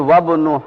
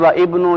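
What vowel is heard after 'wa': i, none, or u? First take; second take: none; i. First: The vowel is dropped and the words run together. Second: A separate 'i' vowel begins the second word. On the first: The speaker calls it right. "पढ़ेंगे" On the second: The speaker calls it wrong. "की बजाय"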